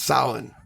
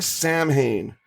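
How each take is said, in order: First: It uses a pronunciation unlike its letters. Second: Each written letter is sounded out. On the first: The speaker calls it right. "It's actually pronounced" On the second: The speaker calls it wrong. "it looks like ... That is not how it is pronounced"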